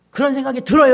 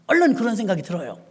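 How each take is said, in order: First: "들어요" pushed out louder; loud emphasis. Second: Said in the usual way. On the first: Real, not acted. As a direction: lean hard into "들어요" to the congregation. ("들어요"를 크게 힘주어) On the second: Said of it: "그런 생각이 들어요, 여러분".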